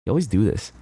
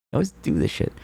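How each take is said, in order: First: Said in the usual way. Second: High, whiny put-on voice; whiny high mock complaint. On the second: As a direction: pitch it up like a sulky kid.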